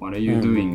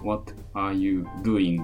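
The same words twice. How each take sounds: First: It is said with natural, connected English sounds. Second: It is said syllable by syllable, romaji style.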